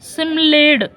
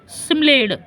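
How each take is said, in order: Both takes have the same delivery.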